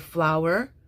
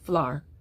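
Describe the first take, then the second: First: The word is said as two syllables. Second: The word is said as one syllable. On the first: "in carefully articulated speech" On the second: "I will teach this as one syllable"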